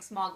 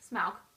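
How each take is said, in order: First: The vowel sounds like the 'o' in 'fog'. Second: The vowel sounds like the 'ow' in 'cow'. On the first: This is how the speaker used to say it. The speaker calls it wrong. "I was definitely saying Smog the whole time" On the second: This is how the author meant it to be said. The speaker calls it right. "according to Tolkien, it's Smaug"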